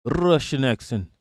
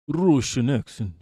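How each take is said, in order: First: Said in the usual way. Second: "Russian accent" said as "Roshan aksen" in a mock Russian accent; a quick mock Russian accent on "Russian accent". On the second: Shown as a demonstration. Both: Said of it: "The Dracula accent is just a Russian accent".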